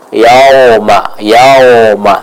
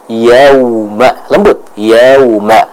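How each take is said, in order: First: Yauma said as yaoma, with an o; wrong o vowel. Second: Yauma with a smooth gliding waw, no o; soft waw. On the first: Teacher imitating the student's o vowel. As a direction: mimic yauma with an o sound. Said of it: "malah menjadi vokal dari huruf o". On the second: Teacher modelling a gentle waw. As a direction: glide yauma gently through the w. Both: Shown as a demonstration.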